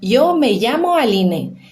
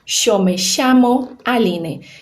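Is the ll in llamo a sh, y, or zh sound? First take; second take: y; sh. First: The ll sounds like an English y. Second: The ll sounds like an English sh. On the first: This is how most of Spain says it. "O Y com som de I, doble L com som de I" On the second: This is how the River Plate region says it. "Esse som de che vai ser o som do Y e doble L"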